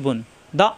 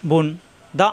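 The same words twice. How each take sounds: The two takes are said the same way.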